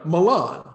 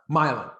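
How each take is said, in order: First: It is pronounced the Italian way. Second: It is pronounced the local American way. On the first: It names the city in Italy. "Italian spelling of, you know" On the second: It names the local town. "but here"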